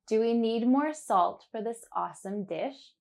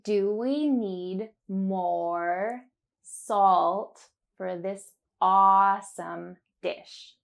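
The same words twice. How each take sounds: First: It is said at a natural speed. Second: It is said slowly and carefully.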